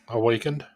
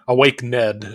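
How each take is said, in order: First: It is said as one word, awakened. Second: It is said as awake plus Ned. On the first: The speaker calls it right. "it's awakened" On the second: The speaker calls it wrong. "Awake Ned, I think is how Tara would always pronounce it"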